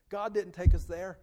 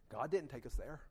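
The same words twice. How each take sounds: First: Louder, driven statement; emphatic repeat. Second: Said in the usual way. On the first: Shown as a demonstration. Preacher insisting to the church, louder. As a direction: hammer it to the congregation.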